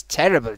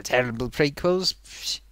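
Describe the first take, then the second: First: Said in the usual way. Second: "terrible" stretched out slow, lower and softer; stressed terrible. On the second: Shown as a demonstration. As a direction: drag out "terrible" with disdain.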